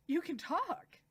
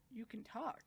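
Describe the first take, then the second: First: Higher, astonished exclamation; amazed outburst. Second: Softly stunned half-question; hushed surprise. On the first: Subaru realises she can talk, loudly amazed. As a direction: burst out with it, astounded. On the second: Subaru hears her speak, quietly stunned. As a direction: murmur it in disbelief, softly. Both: Retold or imitated.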